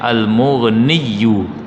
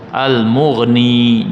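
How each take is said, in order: First: The name ends with an added 'yu' sound. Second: The name ends with a short 'ni' sound. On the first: The speaker calls it wrong. "jangan Al-Mughniyu, tak kena tu" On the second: The speaker calls it right. "yang betul Al-Mughni saja"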